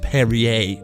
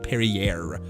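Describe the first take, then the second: First: It is said the French way. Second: It is said the English way. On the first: The speaker calls it right. "the correct pronunciation is Perrier" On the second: The speaker calls it wrong. "not Perrier"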